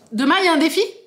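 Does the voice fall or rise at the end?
rises. The voice rises at the end like a question. It asks whether there is a challenge. The speaker calls it wrong.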